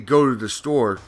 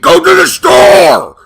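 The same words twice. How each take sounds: First: It is said in a calm, plain way. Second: It is said in a sharp, angry way.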